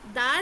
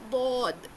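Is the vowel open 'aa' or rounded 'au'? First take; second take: open; rounded. First: The vowel is an open, unrounded 'aa'. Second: The vowel is a rounded 'au'. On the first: The speaker calls it wrong. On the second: The speaker calls it right.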